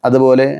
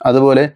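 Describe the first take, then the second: Both takes have the same delivery.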